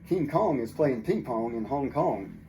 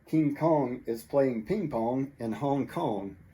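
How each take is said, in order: First: The sentence is spoken at a faster pace. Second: The sentence is spoken at a slower pace.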